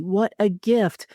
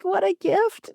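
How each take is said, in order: First: Said in the usual way. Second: High, trembling, nail-biting; shaky voice. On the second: Shown as a demonstration. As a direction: let your voice shake with nerves. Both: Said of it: "I can say with, like, a shaky voice".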